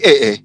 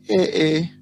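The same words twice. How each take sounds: First: It sounds surprised, like a startled exclamation. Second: It sounds disapproving, as if judging an outfit.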